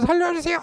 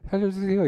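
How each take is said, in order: First: It is shouted at full voice. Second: It is said quietly and calmly.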